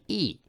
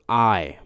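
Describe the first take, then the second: First: E as a pure "ee"; Japanese I vowel. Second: I as the English letter, "eye"; wrong English I. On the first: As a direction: say E like the vowel in "see". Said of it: "This is E". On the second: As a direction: say I as a gliding "eye". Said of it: "It's not I". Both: Shown as a demonstration.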